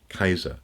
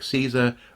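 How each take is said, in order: First: The word begins with a hard K sound. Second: The word begins with a soft S sound. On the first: This is the original Latin pronunciation. "were originally Kaiser" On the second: This is the later, medieval-derived pronunciation. "today we say words like Caesar"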